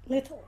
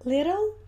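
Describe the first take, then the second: First: The middle T is crisp in a British way. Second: The middle T is softened in an American way. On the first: "O britânico fala little" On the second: "pronúncia mais americana"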